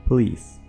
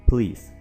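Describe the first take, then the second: Both takes have the same delivery.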